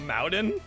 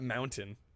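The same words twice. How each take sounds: First: Mountain is said in an imitated, unusual pronunciation. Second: Mountain is said in the ordinary standard pronunciation. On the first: This is how someone else says it. "he says like mountain?" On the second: This is the usual way to say it. "Not mountain"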